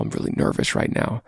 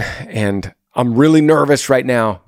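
First: Put-on whispered, shy confession to a girl; imitating a nervous boy whispering to a girl he likes. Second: Said in the usual way. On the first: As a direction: hush it like you're scared to say it. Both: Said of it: "being as vulnerable as possible".

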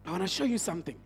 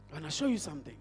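The two takes are said the same way.

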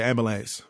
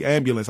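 First: "ambulance" without the y-glide, AM-buh-lance; own slurred pronunciation. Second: "ambulance" fully enunciated, AM-byu-lance; co-host's careful pronunciation. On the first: Podcaster showing his own way, casually slurred "ambulance". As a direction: loosen "ambulance" to "ambalance". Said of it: "I say ambulance". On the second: Podcaster contrasting his co-host's speech, over-enunciated "ambulance". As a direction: sound out the middle "byu" in "ambulance". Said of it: "Like you say ambulance". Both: Shown as a demonstration.

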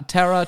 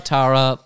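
First: Tara as TERR-a, with an "eh" vowel; show's pronunciation of Tara. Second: Tara as TAH-ra, with an open "ah"; own-accent pronunciation of Tara. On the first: Podcaster comparing two ways to name a character, Tara as TERR-a. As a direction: make Tara rhyme with "terror". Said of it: "I will say Ta". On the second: Podcaster settling on a name for the character, Tara as TAH-ra. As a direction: widen the first vowel of Tara to "ah". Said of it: "I'm calling her Tara as well". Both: Shown as a demonstration.

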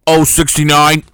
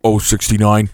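First: Booming caller voice into a mic; bingo caller. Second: Second take, lower and punchy; bingo caller. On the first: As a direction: call the number like a bingo hall MC. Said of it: "pretend to be the bingo caller". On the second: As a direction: call it again, cleaner, no laugh. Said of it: "isolate that audio". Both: Pretend.

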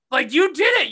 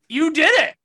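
First: Loud and high, stress on did; heated repeat; angry outburst. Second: Loud and high, jabbing at did; furious accusation; angry outburst. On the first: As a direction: hammer the accusation home. Repeats the accusation. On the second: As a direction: yell it at him in disbelief. Angry rant about the boyfriend. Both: Real, not acted.

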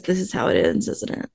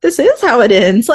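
First: Quiet retold quote. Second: "This is how it ends" declared louder, mock-dramatic. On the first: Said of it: "And Norman just says". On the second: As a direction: ham it up like a movie finale line. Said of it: "And I was like".

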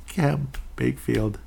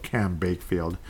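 First: "Cam Bakefield" drawn out slowly, relishing the silly name; savoring the flub. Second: Said in the usual way. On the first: Shown as a demonstration. Podcaster tasting his own slip of the tongue, slow and amused. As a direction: slowly repeat "Cam Bakefield" like a joke you enjoy. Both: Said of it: "Cam Bakefield sounds kinda funny".

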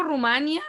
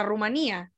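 First: Said in the usual way. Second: "Rumanía" with the í stressed. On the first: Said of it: "yo digo Rumania". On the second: Shown as a demonstration. Quoting her friend from Spain's usage, "Rumanía" stressed on í. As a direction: say "Rumanía" in four syllables, stressing í. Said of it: "lo estoy diciendo así".

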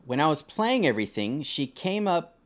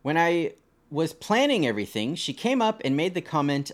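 First: Playing everything, reading the typo as written; misread word. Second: Planning everything, the fixed word read clearly; corrected reread of "planning". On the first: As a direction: say "playing" for planning, straight off the page. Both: Shown as a demonstration. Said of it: "I guess that's supposed to be planning?".

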